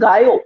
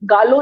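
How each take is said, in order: First: The double L is said as a y sound. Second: The double L is said as an l sound. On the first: The speaker calls it right. "डबल एल is वाई" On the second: The speaker calls it wrong. "Again गालो नहीं होता"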